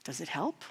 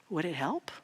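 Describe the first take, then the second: First: Soft question. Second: Soft, low little voice; a quiet inner voice asking calmly. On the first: Real, not acted. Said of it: "And I ask us today". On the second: Retold or imitated. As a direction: say it gently, as an inner voice. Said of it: "his little voice saying".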